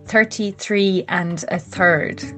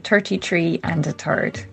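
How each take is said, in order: First: The th is said as a soft th. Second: The th is said as a hard t.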